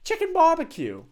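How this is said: It is said in a put-on English accent.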